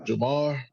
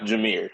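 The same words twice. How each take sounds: First: Jamar with an open "ar" ending; tentative Jamar, rhyming with "far"; questioned pronunciation. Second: Jameer with an "eer" ending; correct pronunciation. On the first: Real, not acted. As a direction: say Jamar, ending like "car", as a guess. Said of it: "he pronounced it how?". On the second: Shown as a demonstration. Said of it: "It's pronounced Jameer".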